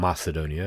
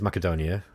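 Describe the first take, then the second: First: The name is pronounced in the Western way. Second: The name is pronounced in a non-Western way.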